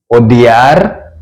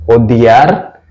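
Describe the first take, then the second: No difference in how they are said.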